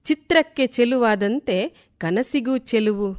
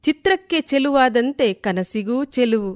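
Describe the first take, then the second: No difference in how they are said.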